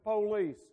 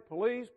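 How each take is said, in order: First: The stress is on the first syllable. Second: The stress is on the second syllable. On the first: "we Southerners drag our words and we accentuate the first syllable" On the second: "I know you're supposed to say police"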